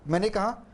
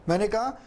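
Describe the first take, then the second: Both takes have the same delivery.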